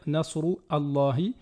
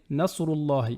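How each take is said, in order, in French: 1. Le coup de glotte avant l'article est prononcé. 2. Les mots s'enchaînent sans coup de glotte. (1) "on ne va pas dire"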